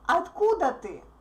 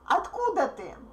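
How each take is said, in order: First: The stress falls on the word откуда. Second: The stress falls on the word откуда.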